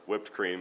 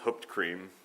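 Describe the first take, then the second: First: The first word begins with a w sound. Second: The first word begins with an h sound. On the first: "as most of us would pronounce it" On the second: "very similar to root beer"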